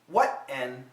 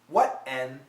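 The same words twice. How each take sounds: First: The T is held as an unreleased stop. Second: The same.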